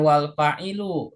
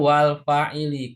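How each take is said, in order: First: The last word ends with an 'oo' vowel. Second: The last word ends with an 'ee' vowel. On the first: The speaker calls it wrong. "Bukan wal fa'ilu ya, bukan" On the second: The speaker calls it right. "Jadi yang betul wal fa'ili"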